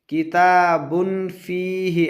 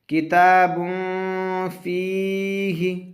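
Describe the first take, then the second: First: The n sound is pronounced fully and clearly. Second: The n sound is hidden in the nose. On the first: The speaker calls it wrong. "ऐसा नहीं पढ़ेंगे" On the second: The speaker calls it right. "तनवीन के बाद हुरूफ इख्फा आया"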